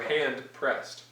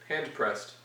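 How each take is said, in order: First: The two words are said carefully and separately. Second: The two words run together as one word. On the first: "I'm just trying to enunciate my words more" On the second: "now say it as one word"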